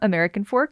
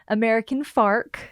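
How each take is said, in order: First: The last word has an 'or' vowel. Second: The last word has an 'ar' vowel. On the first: This is the usual way the name is said. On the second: This is how some other people say the name.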